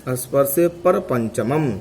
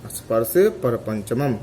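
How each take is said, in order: First: Slow, measured chant of the sutra; स्पर्शे पर पंचमम recited slowly, word by word; slow sutra recitation. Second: Said in the usual way. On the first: Shown as a demonstration. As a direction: spell the rule out slowly for the class. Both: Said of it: "अगला सूत्र है".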